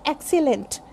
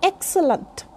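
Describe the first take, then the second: First: Excellent as EK-si-lent, full e at the end; wrong pronunciation. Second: Excellent with weak schwas, EK-suh-lunt; model pronunciation. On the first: Teacher showing the mistake in excellent, EK-si-lent. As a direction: say excellent with clear i and e vowels. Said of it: "Not excellent". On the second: Teacher modelling excellent, correct EK-suh-lunt pronunciation. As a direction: reduce the later vowels of excellent. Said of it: "this is". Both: Shown as a demonstration.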